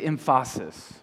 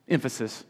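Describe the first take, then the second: First: "emphasis" stressed on the middle syllable, em-FAH-sis; wrong-syllable stress. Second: Said in the usual way. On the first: Shown as a demonstration. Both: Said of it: "emphasize the wrong syllable".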